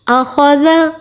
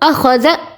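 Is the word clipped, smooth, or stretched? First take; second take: smooth; clipped. First: The word flows quickly and evenly, without jerks. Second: The sounds are cut off with an abrupt jerk. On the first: The speaker calls it right. "इसे पढ़ेंगे आखौज़ा" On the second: The speaker calls it wrong. "झटका भी नहीं देना"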